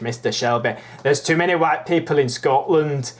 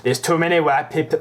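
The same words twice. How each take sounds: First: Amateur Scottish impersonation; higher-pitched, imperfect Scottish accent; attempted Scottish accent. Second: Higher, lilting Welsh-sounding attempt; botched Welsh accent. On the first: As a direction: have a rough go at a Scottish accent. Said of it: "I'll try and do a Scottish". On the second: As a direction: put on a poor Welsh accent. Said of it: "Why am I doing a Welsh accent".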